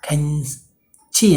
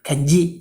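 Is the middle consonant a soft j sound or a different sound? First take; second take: different sound; j sound. First: The middle consonant is not a j sound. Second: The middle consonant is a soft j sound. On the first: The speaker calls it wrong. "என்றும் வராது" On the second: The speaker calls it right. "ஜன்னு தான் வரும்"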